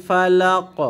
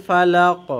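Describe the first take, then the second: Both takes have the same delivery.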